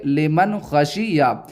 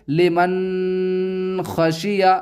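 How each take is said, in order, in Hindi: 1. n की ध्वनि साफ़ और स्पष्ट बोली जाती है। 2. n की ध्वनि अगली ध्वनि में धुंधली हो जाती है। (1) "बल्कि ऐसे पढ़ेंगे" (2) "ऐसे नहीं पढ़ेंगे"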